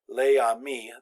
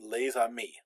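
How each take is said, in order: First: Les and amis are joined without a z sound. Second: A z sound links les to amis. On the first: The speaker calls it wrong. "We don't say les amis. That would be a little awkward to say" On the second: The speaker calls it right. "we make this liaison. This uh, we pronounce that extra sound"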